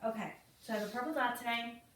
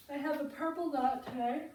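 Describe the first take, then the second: First: Said in the usual way. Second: Talking through a yawn. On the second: Real, not acted. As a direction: yawn while saying it. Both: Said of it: "I'm yawning on top of it".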